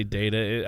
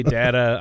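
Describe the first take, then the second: First: "data" said DAY-tuh; long-A pronunciation. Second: "data" said DAT-uh, short flat A; short-A pronunciation. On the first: Co-host giving their own way, "data" as DAY-tuh. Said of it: "I say data". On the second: Co-host contrasting how the other says it, "data" as DAT-uh. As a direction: say "data" with the A of "cat". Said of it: "You say data, I say data". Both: Shown as a demonstration.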